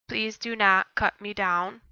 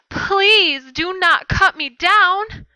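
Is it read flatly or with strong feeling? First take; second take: flatly; strong feeling. First: It is read flatly, without much feeling. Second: It is read with strong, pleading feeling.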